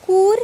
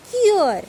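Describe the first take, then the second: First: Kur with a plain oo, loud and high; no umlaut. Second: Cure with a kyu glide, high then falling; U umlaut. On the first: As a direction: say Kur with a long back oo. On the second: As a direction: say cure as German Kür, with kyu. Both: Shown as a demonstration. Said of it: "how to pronounce this".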